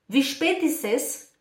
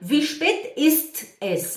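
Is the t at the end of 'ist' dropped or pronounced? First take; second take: dropped; pronounced. First: The t at the end of ist is dropped. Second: The t at the end of ist is pronounced. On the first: The speaker calls it right. "Estão ouvindo?" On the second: The speaker calls it wrong. "E não"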